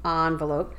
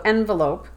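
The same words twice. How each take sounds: First: "envelope" as AHN-vuh-lope; like dawn. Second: "envelope" as EN-vuh-lope; like pen. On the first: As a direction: rhyme the start of "envelope" with dawn. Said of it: "pronounce the first syllable like dawn". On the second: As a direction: rhyme the start of "envelope" with pen. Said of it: "first syllable in that word like pen". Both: Shown as a demonstration.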